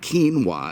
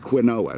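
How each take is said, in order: First: It is said in two syllables, like keen-wah. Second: It is said in three syllables, like kwin-oh-ah. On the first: The speaker calls it wrong. "it's not quinoa. It's not spelled K E E N W A" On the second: The speaker calls it right. "Q U I N O A. That spells quinoa"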